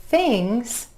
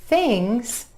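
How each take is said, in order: The two takes are said the same way.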